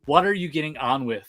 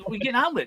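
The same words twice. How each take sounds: First: "What are you getting on with" said word by word; daughter's careful, proper "What are you getting on with"; imitating proper speech. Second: "what are you getting on with" run together, high-pitched; fast slang version. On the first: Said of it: "she talks nice and proper". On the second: Shown as a demonstration. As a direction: rattle "what are you getting on with" off as one slurred word. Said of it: "I'd say it faster".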